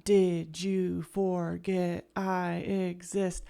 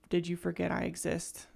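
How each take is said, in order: First: Slow, spaced-out "Did you forget I exist?"; slow rhythmic quote. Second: Said in the usual way. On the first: Retold or imitated. Showing viewers the song's rhythm, slowly. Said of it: "the way that rhythm".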